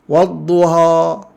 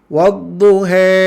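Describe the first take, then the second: First: The final a is overly wide and exaggerated. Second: The final vowel leans too far toward e. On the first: "fathah yang melampau ... tak boleh" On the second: "dia terlebih. Ha, terlebih imalahnya"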